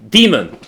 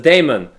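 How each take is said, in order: First: The word begins with a 'dee' sound. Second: The word begins with a 'day' sound. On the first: It sounds evil. The speaker calls it right. "That's that's the correct pronunciation" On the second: It avoids sounding evil. The speaker calls it wrong. "I like calling it daemon because demon sounds evil"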